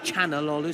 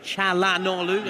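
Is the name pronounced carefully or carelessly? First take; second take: carelessly; carefully. First: The name is said in a slurred, simplified way. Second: The name is said fully, with every sound. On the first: This is the speaker's habitual slip. The speaker calls it wrong. "I sometimes I tend to say Chanalolu" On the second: This is the intended pronunciation. The speaker calls it right. "so Çalhanoğlu"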